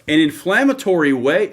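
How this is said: It is said in a deep, bassy voice.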